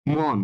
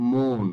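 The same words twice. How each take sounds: First: "মন" as open mawn; ভুল উচ্চারণ. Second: "মন" as rounded mon; সঠিক উচ্চারণ. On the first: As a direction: say "মন" with an aw vowel. ("মন"-এ খোলা অ) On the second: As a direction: say "মন" with a closed o. ("মন"-এ ও ধ্বনি) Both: Shown as a demonstration. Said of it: "মন শব্দটার উচ্চারিত হবে".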